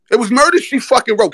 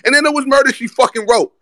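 First: High, crowing repeat of the line; hyped exclaim. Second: Pitched way up, crowing the win; hyped exclaim. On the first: To his viewers, repeating the knockout line, excited. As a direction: hammer the gloat home a second time. Hyped about Knicks comeback win. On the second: To his viewers about the comeback win, excited crowing. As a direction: gloat like the game's already over. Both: Real, not acted.

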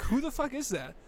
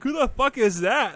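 First: Much higher, baffled; baffled mock voice. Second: High, loud mock shout of disbelief. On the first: Realising the voice wasn't Nixon, high baffled exclamation. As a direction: say it like you can't believe your ears. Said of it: "I'm like". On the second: Retelling classmates mocking his impression, mock yell. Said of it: "they're like".

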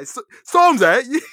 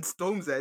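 First: Bad British impression. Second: Said in the usual way. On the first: Podcaster reprises his bad accent for co-host, loud drawn-out "[name]". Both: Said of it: "I'm sorry I'm bad at accents".

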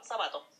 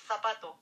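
First: Zapato with an s sound, sapato; seseo zapato. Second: Zapato with a lisped th, thapato; ceceo zapato. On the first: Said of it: "por ejemplo". (zapato pronunciado con s) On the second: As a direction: say zapato with Spanish z. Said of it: "en estricto rigor debería ser". (zapato con zeta española, θapato) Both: Shown as a demonstration.

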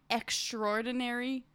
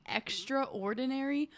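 First: "extraordinary" merged as "ek-STROR-dinary"; American extraordinary. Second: "extraordinary" said as "extra ordinary"; extraordinary as two words. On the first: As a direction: swallow the middle a in "extraordinary". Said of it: "as Americans, we just say". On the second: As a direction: keep the a before "or" in "extraordinary". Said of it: "isn't it technically". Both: Shown as a demonstration.

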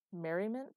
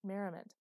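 First: Rising, mocking echo of a fancy word; incredulous question. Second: Merriment said flat and final with a falling tune; firm insistence. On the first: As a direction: scoff at the word merriment. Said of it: "Who uses merriment?". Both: A narrator's reading.

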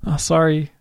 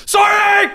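First: Quiet, understated mock apology; soft apology. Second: Very high, hammed-up mock shout; overcompensating apology. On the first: Shown as a demonstration. Friend demonstrating an apology through a car window, soft. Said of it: "that's quite soft". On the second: Driver overcompensating to a street hawker, shouted mock apology. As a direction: blurt the apology way too forcefully. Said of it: "I'm worried that I'd overcompensate".

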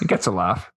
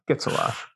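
First: Said in the usual way. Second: Whispered repeat, softer; a hushed echo of the line; quiet echo. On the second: Real, not acted. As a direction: drop to a breathy aside.

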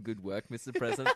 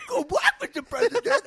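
First: Said in the usual way. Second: Much higher, louder goofy line reading. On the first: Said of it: "It's just him saying". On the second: Retold or imitated. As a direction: squeal the line out like a bad actor. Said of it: "he does a weird voice".

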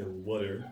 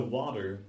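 First: "water" said as "wutter"; Delaware pronunciation. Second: Said in the usual way. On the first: Shown as a demonstration. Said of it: "some Delawareans say water". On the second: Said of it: "What are specific words?".

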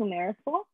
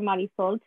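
First: "Marisol" said the American English way; Americanized "Marisol"; anglicized pronunciation. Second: "Marisol" said the Spanish way; Spanish pronunciation. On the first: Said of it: "got switched from Marisol to Marisol". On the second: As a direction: say "Marisol" with Spanish vowels and tapped r. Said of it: "my name got switched from Marisol". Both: Shown as a demonstration.

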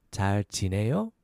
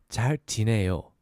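First: 잘 지내요 going up at the end; rising question tune. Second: 잘 지내요 brought down at the end; falling statement tune. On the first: Teacher demonstrating the question, rising at the end. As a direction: lift the last syllable of 잘 지내요 into a question. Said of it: "go up at the end because it's the question". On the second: Teacher answering "I'm good", falling at the end. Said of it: "So we bring it down". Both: Shown as a demonstration.

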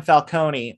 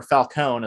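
First: Falcone said fal-KOH-nee; Falcone with final ee. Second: Falcone said fal-KOHN; film's pronunciation. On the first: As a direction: sound the last E of Falcone as "ee". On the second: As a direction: Falcone in two syllables, silent final E. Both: Shown as a demonstration. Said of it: "as they pronounce it in this film".

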